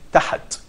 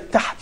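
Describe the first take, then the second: First: A short vowel is sounded between h and t. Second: No vowel is sounded between h and t. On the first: The speaker calls it wrong. "you're putting a vowel, which probably called fatha" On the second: The speaker calls it right. "you're making sukoon"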